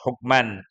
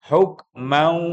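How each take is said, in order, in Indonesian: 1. Bunyi n di akhir terdengar jelas. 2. Bunyi n menyatu menjadi bunyi w yang didengungkan. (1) "mestinya kan begitu, hukman" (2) "Lalu ketemu wawu menjadi hukmau. Masuk kepada wawu dengan disengaukan atau didengungkan"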